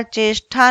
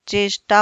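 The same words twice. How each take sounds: First: चेष्टा with aspirated "tha" ending; wrong aspiration. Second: चेष्टा with plain "ta" ending; correct unaspirated form. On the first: Teacher shows wrong चेष्टा, said "cheshtha". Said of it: "चेष्टा नहीं होता". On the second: Teacher corrects to चेष्टा, unaspirated "ta". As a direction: say चेष्टा as "cheshta". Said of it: "चेष्टा होता है". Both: Shown as a demonstration.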